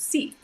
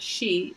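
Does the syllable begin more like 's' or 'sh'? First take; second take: s; sh. First: The syllable begins with an 's' sound. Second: The syllable begins with a 'sh' sound. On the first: The speaker calls it right. "it's si. Like your the corners of your mouth spread out" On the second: The speaker calls it wrong. "It's not she"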